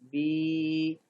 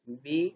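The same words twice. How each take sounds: First: The vowel is drawn out long. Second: The vowel is short. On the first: "खड़ी ज़ेर को भी थोड़ा खींच के पढ़ा जाता" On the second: "ज़ेर"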